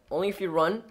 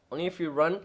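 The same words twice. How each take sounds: The two takes are said the same way.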